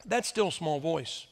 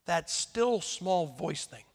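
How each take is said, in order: First: Slow, lowered, drawn-out phrase; mock still small voice. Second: Slow, lowered, half-mocking delivery; mock still small voice. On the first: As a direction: say it with weary sarcasm. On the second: Preacher mocking God's gentle inner nudge, slowly. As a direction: drag out still small voice with disdain. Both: Shown as a demonstration. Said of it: "I have had it to here with the still small voice".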